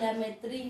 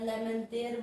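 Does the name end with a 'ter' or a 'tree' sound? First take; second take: tree; ter. First: The name ends with a 'tree' sound. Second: The name ends with a 'ter' sound. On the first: This is how some people say the name. "कुछ लोग प्रोनाउंसिएशन के तौर पर लेमेत्री बोलते हैं" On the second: This is how the name should be said. "या लेमेंतेर बोला जाए"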